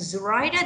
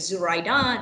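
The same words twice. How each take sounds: First: The stress is on the second syllable. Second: The stress is on the third syllable. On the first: "then I put emphasis on the second syllable" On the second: "my stress on the third syllable"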